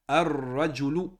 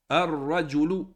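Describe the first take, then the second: Both takes have the same delivery.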